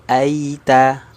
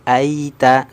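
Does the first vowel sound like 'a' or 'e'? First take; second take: a; a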